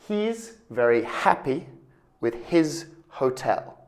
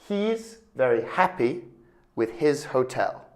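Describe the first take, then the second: First: The H sounds are clearly pronounced in the words. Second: The H sounds are clearly pronounced in the words.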